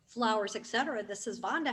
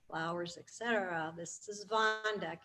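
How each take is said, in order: First: The voice sounds warm, lively and inviting. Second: The voice sounds flat, low-energy and uninviting. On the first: The caller is glad to be calling. The speaker calls it right. "it's interacting with them in a way that they're happy that they called you" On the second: The speaker has no time for the caller. The speaker calls it wrong. "the inflection of my voice doesn't say that they're welcome to call"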